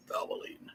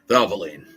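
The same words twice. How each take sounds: First: Hushed, whispery brand name; whispered slogan. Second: Loud, punchy brand name; loud slogan. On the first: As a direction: whisper it like an ad tagline. Slogan said hushed, then out loud. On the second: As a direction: call it out like an ad tagline. Slogan repeated out loud after whisper. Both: Acted.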